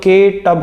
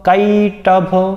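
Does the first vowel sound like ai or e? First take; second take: e; ai. First: The first vowel is the plain e sound. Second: The first vowel is the long ai sound.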